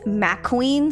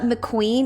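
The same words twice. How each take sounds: First: The first syllable has a full vowel. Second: The first syllable is short and reduced. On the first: This is the character's actual name. The speaker calls it right. "it's got an A in there. there's another little syllable in there" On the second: This is the racing-car cartoon name. The speaker calls it wrong. "So it's not McQueen"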